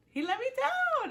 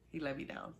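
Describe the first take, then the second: First: Much higher, louder, wailing mock heartbreak; hammed-up wail. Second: Said in the usual way. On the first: Shown as a demonstration. Fan wails about Dom letting her down. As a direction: whine it like a betrayed fan.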